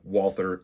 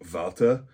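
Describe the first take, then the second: First: The name is said the American way. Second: The name is said the original way. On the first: "You will never hear an American calling a Walther a Walter" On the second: "the word Walther is said something a little more along the lines of Walter"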